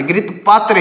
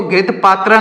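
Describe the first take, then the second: First: पात्र ending on a short neutral vowel, paa-tr; घृत पात्र with no final aa, clipped off short; correct reading paatra. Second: पात्रा with a long final aa, paa-traa; wrong reading paatraa. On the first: Teacher tells students to read it as घृत पात्र with no final aa. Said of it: "ही पढ़ेंगे". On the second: Teacher warns students against reading it as घृत पात्रा with a final aa. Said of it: "नहीं पढ़ेंगे". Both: Shown as a demonstration.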